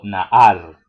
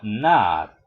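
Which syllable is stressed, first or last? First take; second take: last; first. First: The stress is on the last syllable. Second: The stress is on the first syllable. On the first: The speaker calls it wrong. "No digo naar" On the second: The speaker calls it right. "sino nar, se acentúa en la penúltima sílaba"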